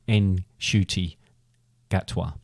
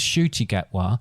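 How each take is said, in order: First: The first name starts with an audible N sound. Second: The first name starts without an N sound. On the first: The speaker calls it right. "you pronounce the N at the beginning" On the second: The speaker calls it wrong. "I thought it was"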